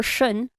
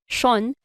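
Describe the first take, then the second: First: "shun" with a short, reduced vowel; "shun", the vowel given little time; American "shun". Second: "shon" with a full O; "shon", emphasis on a rounded O; Filipino "shon". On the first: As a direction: say "shun" quickly, as in American English. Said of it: "American accent tends to have lesser time". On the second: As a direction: say "shon" with the O given more time, Filipino style. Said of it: "for a Filipino accent, you have a lot more time". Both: Shown as a demonstration.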